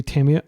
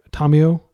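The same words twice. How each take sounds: First: Said in the usual way. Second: Tamio as TAH-mee-oh, open ah and even syllables; Japanese pronunciation. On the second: Shown as a demonstration. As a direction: give Tamio its Japanese sounds, flat and even. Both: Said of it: "I'll use the Japanese pronunciation".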